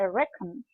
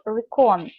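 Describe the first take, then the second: First: The stress is on the first syllable. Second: The stress is on the second syllable. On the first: The speaker calls it right. "Please make sure you have the correct stress" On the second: The speaker calls it wrong. "not recon. Recon sounds terrible"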